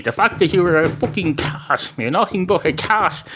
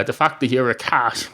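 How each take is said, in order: First: Higher-pitched, hammed-up exasperated insistence; acted exasperation. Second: Said in the usual way. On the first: Barman insults a cat customer, in mock exasperation. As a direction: lose patience, pitch climbing, as a joke character. Barman loses patience, repeats with swearing.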